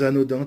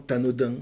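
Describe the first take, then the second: First: The word starts directly with its vowel. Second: A linking t sound is added before the word.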